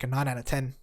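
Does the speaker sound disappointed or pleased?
disappointed. It is said in a flat, disappointed tone. The rating is a letdown. The speaker calls it wrong.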